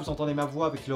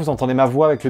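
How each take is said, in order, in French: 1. La voix est captée à environ un mètre. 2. La voix est captée juste à côté. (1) "avec le Rode VideoMic Pro qui se situe à peu près à un mètre de moi" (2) "avec le micro-cravate Boya qui se situe juste ici"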